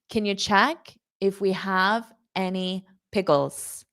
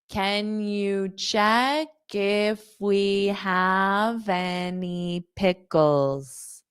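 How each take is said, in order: First: The sentence is said at normal speed. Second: The sentence is said slowly.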